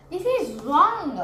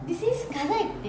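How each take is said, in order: First: Louder, falling on wrong; teacher flagging the wrong spelling; firm wrong. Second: Said in the usual way. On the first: Shown as a demonstration. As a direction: mark it as the mistake.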